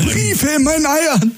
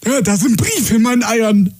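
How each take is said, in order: First: Higher, slow, spelled-out repeat; exasperated repeat. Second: Higher, indignant caller; complaining caller. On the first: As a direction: repeat it slowly and fed up. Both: Retold or imitated. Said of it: "dieses Gespräch so nachgeahmt".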